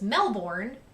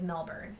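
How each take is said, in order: First: It is pronounced as spelled, American-style. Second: It is pronounced the Australian way. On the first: The speaker calls it wrong. "I would have always thought that it was Melbourne. That's how it is spelled" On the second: The speaker calls it right. "He's like, it's Melbourne"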